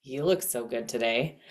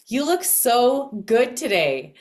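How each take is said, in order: First: Low, soft, low-key delivery with little stress; understated inflection. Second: Gushing lift on SO, falling away after; emphatic inflection. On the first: Coach demonstrating inflection to listeners, low subdued compliment. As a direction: say it low and subdued, barely lifting any word. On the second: Coach demonstrating inflection to listeners, emphatic gushing praise. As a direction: lean high and loud into SO, dropping through "today". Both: Shown as a demonstration. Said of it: "so there's that inflection".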